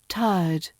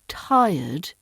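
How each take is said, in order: First: The word is said in its RP form. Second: The word is said in its usual form. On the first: "becomes tired" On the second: "Notice how the word tired becomes"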